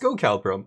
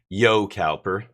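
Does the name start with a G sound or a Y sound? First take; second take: G sound; Y sound. First: The name begins with a hard G sound. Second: The name begins with a Y sound. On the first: The speaker calls it wrong. "It was a G before" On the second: The speaker calls it right. "silent G turns into Y"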